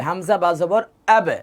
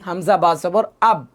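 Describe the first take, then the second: First: হামজা বা জবর আবে with the ব bounced into a short echo; qalqala echo. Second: হামজা বা জবর আব with a flat, unbounced আব; wrong flat ending. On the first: Teacher showing students the right reading, bounced echo. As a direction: let আবে ring with a little rebound. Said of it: "এভাবে পড়তে হবে". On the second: Teacher showing students the wrong way, clipped and flat. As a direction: say আব dead and clipped, no echo. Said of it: "আব বললে ভুল হবে". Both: Shown as a demonstration.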